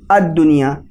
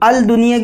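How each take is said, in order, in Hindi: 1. L silent है और D दोहरा हो जाता है। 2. L ध्वनि D से पहले साफ़ बोली जाती है। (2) "अल दुनिया के बजाय"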